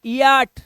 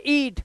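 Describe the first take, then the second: First: ईयाट split into two vowels, ee-yaat; wrong two-syllable ईयाट; misreading of eat. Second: ईट with one long ee; one-vowel ईट, the a silent; correct eat. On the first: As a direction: read ईयाट wrongly, sounding e and a separately. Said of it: "अब इसे इया नहीं पढ़ते". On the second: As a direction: say ईट as a single drawn-out syllable. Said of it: "इसे पढ़ोगे ईट". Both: Shown as a demonstration.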